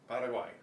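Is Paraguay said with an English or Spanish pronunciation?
Spanish. It is said with a Spanish pronunciation. The speaker calls it right. "Same way with Paraguay"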